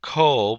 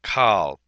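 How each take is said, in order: First: The vowel is an 'o' sound. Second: The vowel is an 'a' sound. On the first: The speaker calls it wrong. "not kol" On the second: The speaker calls it right. "but kal"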